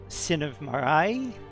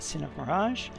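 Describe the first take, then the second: First: The J is sounded like the Y in yes. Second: The J is sounded like an English J. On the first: It follows European language habits. "a J is usually pronounced like a, um, a consonant Y" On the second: It follows English habits. "But here it's uh"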